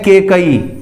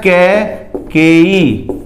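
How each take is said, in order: First: It is said ke-kai, with fewer syllables. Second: It is said kai-ke-yi with three full syllables. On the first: The speaker calls it wrong. "हम बोलते हैं केकई ... ये गलत है" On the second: The speaker calls it right. "ये शब्द होता है कैकेयी"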